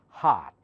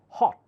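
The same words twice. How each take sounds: First: The vowel is an open ah. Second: The vowel is a short rounded o. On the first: "They almost always change it to more open ah" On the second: "That's British"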